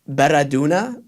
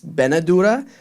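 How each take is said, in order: First: The r comes before the n in the word. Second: The n comes before the r in the word. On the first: The speaker calls it wrong. "I say it um" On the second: The speaker calls it right. "which is actually it's"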